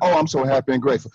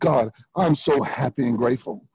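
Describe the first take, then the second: First: It sounds casual and without real feeling. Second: It sounds deeply felt and full of emotion.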